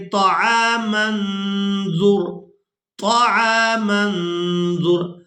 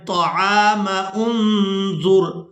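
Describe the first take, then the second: First: طعام انظر with the mim linked straight into the nun, the hamza dropped; joined reading, mim into nun. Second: طعام انظر run together with no pause, the wrong way; wrong joined reading. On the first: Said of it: "میم کو نون ساکن کے ساتھ ملا کر ادا کرنا ہے". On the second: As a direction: join طعام into انظر without stopping. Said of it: "اور یہ مجہول طریقہ ہے". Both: Shown as a demonstration.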